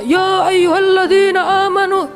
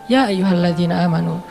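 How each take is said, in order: First: It is said loudly, like shouting. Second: It is said calmly and relaxed.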